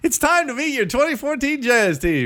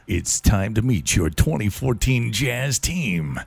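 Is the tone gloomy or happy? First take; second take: happy; gloomy. First: It is said in a friendly, happy tone. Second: It is said in a gloomy, unfriendly tone.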